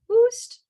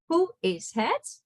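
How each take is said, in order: First: The phrase is squeezed into one syllable. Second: The phrase is said as three separate words. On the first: It is a casual, slangy greeting. "very slangy way of saying it" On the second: It is the standard, full greeting. "instead of saying"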